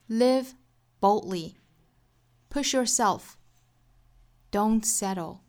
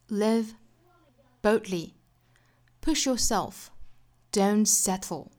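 First: It is read slowly in an American accent. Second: It is read slowly in a British accent. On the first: "分别用英音和美音来读一下" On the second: "分别用英音和美音来读一下"

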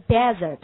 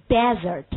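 Both takes have the same delivery.

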